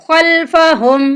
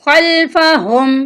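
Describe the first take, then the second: No difference in how they are said.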